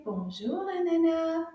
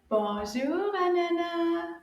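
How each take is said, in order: First: Said in the usual way. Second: Slightly raised, drawn-out greeting for a class; a bit louder. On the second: Shown as a demonstration. Teacher asks children to greet Anana louder, a bit louder. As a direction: call the greeting out a little louder. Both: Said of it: "say that a little bit louder".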